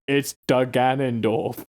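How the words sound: It is said in a grave, wise-sounding voice. "tries to sound all wise"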